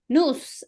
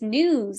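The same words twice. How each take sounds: First: It is said in a Bronx Latina accent. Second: It is said in a standard American accent.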